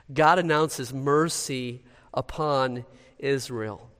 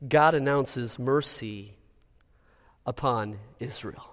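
Both takes have the same delivery.

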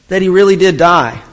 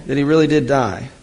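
First: "really" pressed louder as the key point; stress on really. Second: Said in the usual way. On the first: Shown as a demonstration. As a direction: lean hard on "really" to drive it home.

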